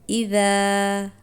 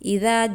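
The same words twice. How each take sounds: First: The long vowel is drawn out for two counts. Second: The long vowel is rushed and cut short. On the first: The speaker calls it right. "सही तरीका है" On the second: The speaker calls it wrong. "हम अक्सर जल्दी में इज़ा जा पढ़ देते हैं"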